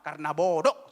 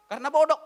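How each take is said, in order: First: Said in the usual way. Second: "Karena bodoh" repeated louder and higher, hitting "bodoh"; emphatic repeat. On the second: Shown as a demonstration. Preacher to female students, repeating "bodoh" loud and higher. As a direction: hammer "bodoh" home the second time.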